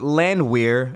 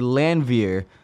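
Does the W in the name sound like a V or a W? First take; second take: W; V. First: The W is said as an English W. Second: The W is said as a V. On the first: The speaker calls it wrong. "it wasn't Landwehr" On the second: The speaker calls it right. "it's actually Landwehr"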